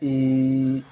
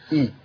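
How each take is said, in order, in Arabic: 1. الحركة طويلة، تُمَدّ بمقدار حركتين. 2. الحركة قصيرة، تُمَدّ بمقدار حركة واحدة. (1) "على المد الياء" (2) "همزة وكسرة"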